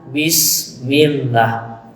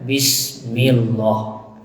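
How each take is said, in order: First: The final 'lah' is said thin and light. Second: The final 'lah' is said full and heavy. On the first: The speaker calls it right. "nah maka dibaca lah" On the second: The speaker calls it wrong. "tidak boleh kita membacanya bismillah"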